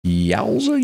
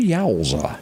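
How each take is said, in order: First: Yowza squealed up high in mock shock; a high yelp of yowza; high surprised yowza. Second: Said in the usual way. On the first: Real, not acted. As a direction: throw the yowza way up in disbelief. Exclaiming at the news.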